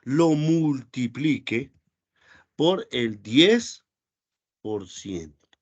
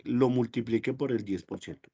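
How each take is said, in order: First: Very slow, word by word, like dictating; slow dictation. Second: Said in the usual way. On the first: Shown as a demonstration. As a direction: spell out the formula slowly for the students. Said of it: "dictando la fórmula despacio". (dictado muy lento, palabra por palabra) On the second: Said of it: "repite la fórmula a ritmo normal".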